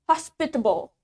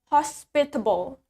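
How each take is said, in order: No difference in how they are said.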